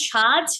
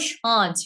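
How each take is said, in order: First: Said in the usual way. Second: "সাজ" with its vowel sent through the nose; nasalised vowel. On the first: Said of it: "তারপরে দেখেন কি আছে?". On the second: Shown as a demonstration. Teacher showing the chandrabindu sound, nasalised. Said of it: "এই গেল চন্দ্রবিন্দুর উচ্চারণগুলো".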